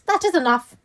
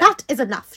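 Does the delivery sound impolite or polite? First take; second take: polite; impolite. First: It is said in a more polite tone. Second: It is said in a curt, impolite tone. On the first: The speaker calls it right. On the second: The speaker calls it wrong.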